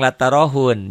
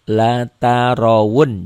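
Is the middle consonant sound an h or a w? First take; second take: h; w. First: The middle consonant is an h sound. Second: The middle consonant is a w sound. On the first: The speaker calls it wrong. "Banyak orang yang latarohun, jangan" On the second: The speaker calls it right. "ini wow. Latarawun, jangan latarohun ya"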